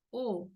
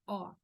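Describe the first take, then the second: First: O with circumflex, closed and rounded. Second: O with acute accent, opened like "aw". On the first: Teacher explains the circumflex, closed O. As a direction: say O tight, as in Spanish. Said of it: "acento circunflexo". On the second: Teacher contrasts it with circumflex, open O. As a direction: open throat and mouth on O. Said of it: "con la tilde tiene sonido de". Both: Shown as a demonstration.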